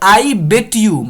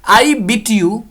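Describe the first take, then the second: First: The word 'beat' has a short e vowel. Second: The word 'beat' has a long ee vowel. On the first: The beating happened in the past. "I बेट you मैंने तुम्हें पीटा, pronunciation अलग हो गया ना" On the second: The beating happens habitually, in the present. "I बीट you मैं तुम्हें पीटता हूं"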